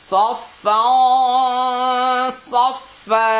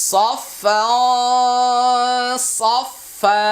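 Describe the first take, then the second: Both takes have the same delivery.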